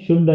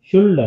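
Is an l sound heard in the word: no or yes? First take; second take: no; yes. First: No l sound is pronounced before the d. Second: An l sound is pronounced before the d. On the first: The speaker calls it right. "షుడ్ అని చదువుతాం" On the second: The speaker calls it wrong. "ఎల్ కూడా కలిపితే షుల్డ్ అనాలి"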